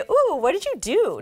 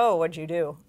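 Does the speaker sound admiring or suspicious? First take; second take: admiring; suspicious. First: It sounds admiring and impressed. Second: It sounds suspicious and doubtful. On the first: The person looks good and refreshed. The speaker calls it right. "We always want you to say" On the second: The person obviously had work done. The speaker calls it wrong.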